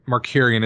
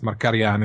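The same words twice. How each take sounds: First: The name is pronounced in an anglicized English way. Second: The name is pronounced in its original Armenian way. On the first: "is an English anglicized pronunciation" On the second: "I think it's Markarian is, you know, the"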